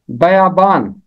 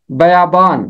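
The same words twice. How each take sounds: The two takes are said the same way.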